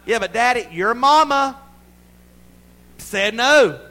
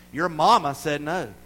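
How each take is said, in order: First: Loud, high mock parental outburst; exasperated shout. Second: Said in the usual way. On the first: Father to a pestering child, exasperated shout. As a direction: shout it like a parent pushed too far.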